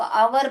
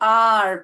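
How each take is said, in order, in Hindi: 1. यह शब्द दो शब्दांश में बोला जाता है। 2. यह शब्द एक शब्दांश में बोला जाता है। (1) "उसको आवर बहुत लोग प्रोनाउंस करते हैं जो कि गलत है" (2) "उसको आर प्रोनाउंस करना चाहिए"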